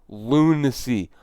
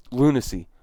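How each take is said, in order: First: Lunacy stretched out slowly, each syllable drawn. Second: Said in the usual way. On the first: Real, not acted. Repeating the headline verdict, slow drawn-out Lunacy. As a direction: drag out Lunacy with slow disbelief. Repeats the word, second time slower.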